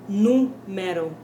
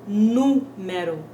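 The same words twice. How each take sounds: No difference in how they are said.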